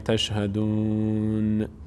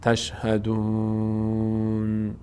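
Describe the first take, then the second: First: The final n is followed by a short vowel. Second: The voice stops right on the final n. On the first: The speaker calls it wrong. "یک حرکتی آخر به نون میدن" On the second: The speaker calls it right. "نه"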